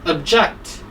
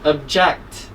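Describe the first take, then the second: First: The stress is on the second syllable. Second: The stress is on the second syllable.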